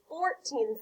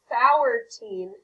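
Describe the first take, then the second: First: The first vowel sounds like the one in four. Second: The first vowel sounds like the one in hour. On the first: The speaker calls it right. "fourteen sounds a lot better" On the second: The speaker calls it wrong. "I know O U R by itself says hour. But in this word, it sounds like fourteen, and that doesn't sound right"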